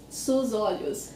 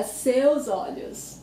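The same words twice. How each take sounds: First: Sus olhos with a plain soos; slowly, sus as SOOZ in sus olhos; students' mistake. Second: Slow seus olhos with eh-oo in seus; correct version. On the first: Teacher quotes Spanish-speaking students, mistaken sus olhos. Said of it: "my students always say". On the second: Teacher confirms co-host's try, slow correct seus olhos. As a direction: draw out seus as SEH-ooz before olhos. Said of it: "But the word is seus". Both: Shown as a demonstration.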